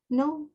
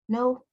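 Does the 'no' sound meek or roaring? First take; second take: meek; meek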